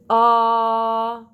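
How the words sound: The vowel starts with a hard, forced catch. The speaker calls it wrong. "or the forced sound of glottal, which would be ah"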